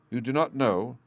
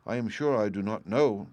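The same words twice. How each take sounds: First: Stern. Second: Said in the usual way. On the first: Acted. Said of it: "said Bluebeard sternly".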